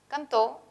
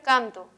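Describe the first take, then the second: First: The stress is on the last syllable. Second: The stress is on the first syllable. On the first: Someone did it in the past. "puede tener el acento, como ocurre en este caso, en la última" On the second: It is happening in the present. "donde el acento se ubicaría en la penúltima"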